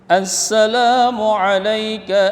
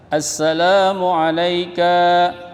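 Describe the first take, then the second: First: The final vowel of alayka is kept short. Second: The final vowel of alayka is drawn out long. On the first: The speaker calls it right. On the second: The speaker calls it wrong. "terbaca panjang"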